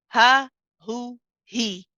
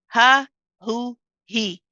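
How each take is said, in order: No difference in how they are said.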